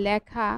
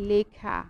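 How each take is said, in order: First: লেখা said with a close e, as in "ে"; teacher shows the mistaken close-e লেখা; wrong close e. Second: লেখা said with an open "ae" vowel, like ল্যাখা; teacher models লেখা with an open first vowel; correct open e. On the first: Teacher to students, shows the wrong close e. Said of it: "সেটা ভুল উচ্চারণ". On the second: Teacher to students, models the correct open e. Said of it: "এটার উচ্চারণ বলছি লেখা". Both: Shown as a demonstration.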